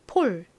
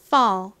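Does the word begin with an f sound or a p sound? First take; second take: p sound; f sound. First: The word begins with a p sound. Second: The word begins with an f sound. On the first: The speaker calls it wrong. "한국식으로는 주로 이 단어를 어떻게 표기한다고" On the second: The speaker calls it right. "실제 미국식 영어 발음으로는"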